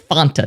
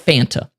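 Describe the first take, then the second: First: It is said with a Spanish-like vowel sound. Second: It is said with a plain English vowel sound. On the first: This is how the commercials say it. The speaker calls it right. "I'm going to say what the sexiest ladies say, which is Fanta" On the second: This is how most people around them say it. The speaker calls it wrong. "not Fanta"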